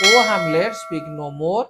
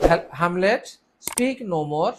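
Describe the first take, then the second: First: ଓ called out loud, then hamlet with a rise and a drop on speak no ମୋର; exclamatory reading. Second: Said in the usual way. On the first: Shown as a demonstration. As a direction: read it with an exclamation mark, a loud ଓ at the start. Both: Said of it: "ଏଇଟା ଆମର ବିସ୍ମୟ ସୂଚକ ରହିଛି ଏଠି".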